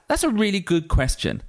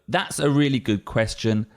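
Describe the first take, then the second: First: It is said with surprise and warm emotion. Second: It is said in a plain, neutral way.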